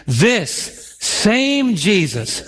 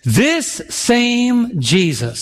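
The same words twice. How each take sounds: First: Said together, very slow. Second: Slow emphatic phrase. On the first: Preacher leading the church in repeating the verse, drawn out. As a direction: lead the congregation in saying it slowly. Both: Shown as a demonstration. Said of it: "say that with me".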